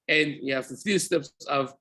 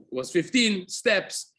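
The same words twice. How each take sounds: First: Said in the usual way. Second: Slow, with fifteen leaned on hard; slow it down and land on the word fifteen; stress on fifteen. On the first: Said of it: "restates the count at normal pace". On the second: Shown as a demonstration. Teacher to class, stressing fifteen slowly. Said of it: "stressing the count of steps".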